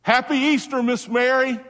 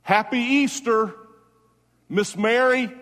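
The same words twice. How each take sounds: First: Even higher and louder call. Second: Called out high and loud, slowly; calling out to Mary. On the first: Preacher repeats the Easter call to Miss Mary, louder still. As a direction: throw the greeting out with full force, building. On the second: Preacher calls out Easter greetings to the late Miss Mary, loud and high. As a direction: lift it up like a greeting across to heaven. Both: Real, not acted.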